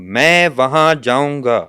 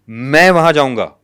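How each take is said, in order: First: All three words carry stress. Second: The first word carries the main stress. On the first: It becomes a subtle statement. "और अगर मैं तीनों पे stress दे रहा हूं" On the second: The person going is what matters. "यानी मेरा जाना इंपॉर्टेंट है।"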